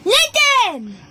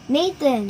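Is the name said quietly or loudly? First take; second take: loudly; quietly. First: The name is said loudly. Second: The name is said quietly.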